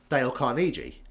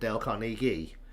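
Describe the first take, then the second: First: The name is said with a British pronunciation. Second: The name is said with an American pronunciation. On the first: "I think in British English" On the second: "Or if you're an American"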